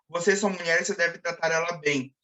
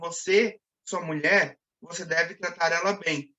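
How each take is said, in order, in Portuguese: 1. As frases são ditas sem nenhuma pausa. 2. As frases são separadas por pausas claras. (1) "quando não há pausa, essa adjacência quebrada causa um estranhamento" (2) "Diferentemente de dez"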